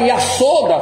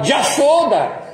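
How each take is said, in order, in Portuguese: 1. A palavra começa com som de y. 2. A palavra começa com som de j. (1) "Não fala Yasoda" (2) "fala Jashoda"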